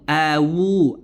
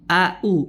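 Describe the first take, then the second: First: The middle consonant is a w sound. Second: The middle consonant is a plain glottal stop. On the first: "Atau dia merubah menjadi huruf waw" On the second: "Jadi huruf hamzah u"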